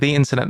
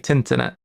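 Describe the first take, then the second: First: The word 'the' is said in full. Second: The word 'the' is cut to a 't' sound. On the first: "Instead of saying the internet" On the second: "they say tinternet"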